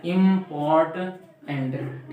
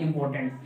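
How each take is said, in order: First: इम्पोर्टेंट very slow, in three separate parts; syllable by syllable. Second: Said in the usual way. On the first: Shown as a demonstration. Teacher showing three syllables, इम्पोर्टेंट slowly broken up. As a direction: stretch इम्पोर्टेंट into three distinct beats. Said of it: "इसको तीन बार में हम पढ़ते हैं". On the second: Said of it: "ये होता है".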